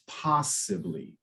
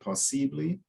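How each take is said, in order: First: The stress is on the first syllable. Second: The stress falls later in the word. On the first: The speaker calls it right. "often the emphasis is is closer to the beginning" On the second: The speaker calls it wrong. "I think you said possibly"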